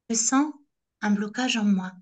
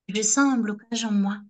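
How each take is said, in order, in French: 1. Elle est prononcée lentement et délibérément. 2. Elle est prononcée à un rythme ordinaire.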